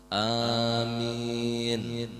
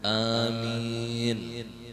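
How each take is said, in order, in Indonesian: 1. Vokalnya dipanjangkan. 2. Vokalnya dipanjangkan.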